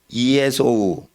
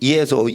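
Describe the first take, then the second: First: The name is said slowly, every syllable apart. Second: The name is said quickly, syllables run together.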